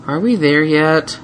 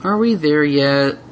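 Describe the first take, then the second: First: Slow, whiny question; bored little dragon; plaintive. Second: Slow, bored drawn-out question; whiny. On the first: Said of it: "a plaintive voice". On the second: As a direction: wear her down. Repeated whine. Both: Acted.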